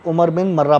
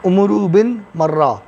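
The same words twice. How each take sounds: First: عمر بن مرہ said as Umar bin Mura, a single light r in مرہ; عمر بن مرہ as some read it, Umar bin Mura; variant name reading. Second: عمرو بن مرہ said as Umuru bin Murra, the r of مرہ doubled; عمرو بن مرہ read slowly and carefully as Umuru bin Murra; careful name reading. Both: Shown as a demonstration. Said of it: "بعض لوگ عمر بن مرہ پڑھتے ہیں".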